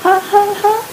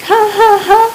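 First: Tiny, much higher timid ha ha ha; a scared child trying to laugh on command; small forced laugh. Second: Much higher fake laugh, said fast in fear; frightened child hurrying a fake laugh; quick forced laugh. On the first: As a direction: squeeze out a frightened fake laugh. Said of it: "was very small". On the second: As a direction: rush out the ha ha ha before he strikes. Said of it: "I spoke it again quickly". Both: A narrator's reading.

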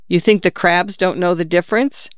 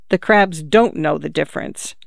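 First: "difference" lifted as a question; doubting question ending on "difference". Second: "don't" stressed, "difference" falling; settled answer, dropping at "difference"; firm statement. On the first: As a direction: ask it with a rise on "difference". Doubting question, then echoed as answer. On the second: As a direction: state it firmly, leaning on "don't". Firm answer echoing the question. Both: A narrator's reading.

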